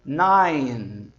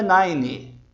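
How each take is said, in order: First: "nine" short, no final vowel; correct nine. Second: "nine" with an extra i, "naini"; wrong nine. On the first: Teacher models correct nine. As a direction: close "nine" on the n. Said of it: "O número nove você diz". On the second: Teacher shows wrong nine with added vowel. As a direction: add a vowel after "nine". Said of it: "não é nine". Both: Shown as a demonstration.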